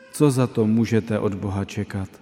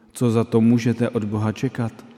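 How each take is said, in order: No difference in how they are said.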